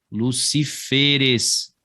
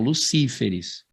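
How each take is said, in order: First: Luciferes slow, stressed on FE, lu-ci-FE-res. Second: Lucíferes stressed on CÍ, lu-CÍ-fe-res. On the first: Teacher giving students the plural Luciferes with FE stressed. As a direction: slowly put the weight on FE in Luciferes. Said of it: "a tônica sendo a última". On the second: Teacher warning students off the plural Lucíferes, stressed on CÍ. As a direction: say Lucíferes with the weight on CÍ. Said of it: "E não Lucíferes". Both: Shown as a demonstration.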